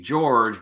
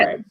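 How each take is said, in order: First: The name is said with English sounds. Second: The name is said with Spanish sounds. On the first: "the English pronunciation would be George" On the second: "I would say Jorge"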